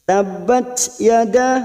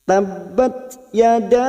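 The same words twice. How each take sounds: First: The final t of tabbat drifts toward an s. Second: The final t of tabbat stays a clean t. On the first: The speaker calls it wrong. "itu lari dari makhraj sa" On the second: The speaker calls it right. "Kita cukup tabbat yada"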